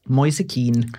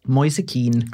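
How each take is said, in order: First: The surname sounds like Keen. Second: The same.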